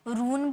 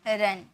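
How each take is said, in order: First: The vowel is a long 'oo' sound. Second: The vowel is a short 'uh' sound. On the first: The speaker calls it wrong. "यू को क्या यू में पढ़े, रून बोले क्या, नहीं" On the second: The speaker calls it right. "इसे अ में sound निकलता है"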